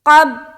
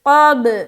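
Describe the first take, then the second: First: The final b stops with no echoing bounce. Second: The final b is released with an echoing bounce. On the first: The speaker calls it wrong. "ऐसा नहीं" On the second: The speaker calls it right. "ऐसा अदा करना है"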